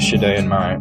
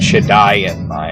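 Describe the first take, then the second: First: The first word is said as one syllable. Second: The first word is said as two syllables. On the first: The speaker calls it wrong. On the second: The speaker calls it right.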